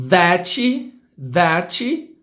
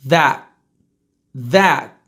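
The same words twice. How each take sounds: First: "that" as "thatchy", rising; Brazilian pronunciation. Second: Short, low "that" cut at t; true English pronunciation. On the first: Teacher mimicking Brazilians, "that" with final i. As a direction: add "chee" to "that". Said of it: "vou falar como brasileiro falaria". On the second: Teacher's correct take, "that" without final vowel. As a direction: stop "that" with the t unreleased. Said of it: "depois eu vou falar como se é". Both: Shown as a demonstration.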